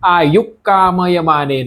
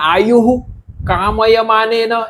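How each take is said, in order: First: The h-sound merges straight into the next word. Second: The h-sound is fully pronounced before the next word. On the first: The speaker calls it right. "આ સીધું જ આની સાથે થઈ જતું" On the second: The speaker calls it wrong. "એમ નથી બોલવાનું"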